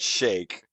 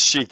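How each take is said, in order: First: The vowel is an 'ay' sound. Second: The vowel is a long 'ee' sound. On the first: The speaker calls it wrong. "it is not shake" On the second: The speaker calls it right. "is chic"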